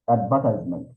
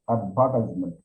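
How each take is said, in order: The two takes are said the same way.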